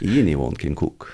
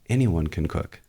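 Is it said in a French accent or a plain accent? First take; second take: French; plain. First: It is said in a put-on French accent. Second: It is said in the speaker's plain accent.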